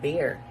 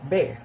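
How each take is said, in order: First: It is said in an American accent. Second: It is said in a British accent. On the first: "while in American" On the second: "So in British, we could uh, pronounce it as bear"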